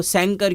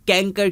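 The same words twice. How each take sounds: First: سینکر with S first and K second; swapped C sounds. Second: کینکر with a K sound for both Cs; wrong hard-C reading. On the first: Teacher asks why not this reading, S then K. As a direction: say سینکر as SAN-ker. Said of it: "دوسرے سی کی آواز کھ". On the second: Teacher asks why not this reading, both Cs as K. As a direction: say کینکر as KAN-ker. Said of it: "پہلے سی کی آواز س کر دیں". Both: Shown as a demonstration.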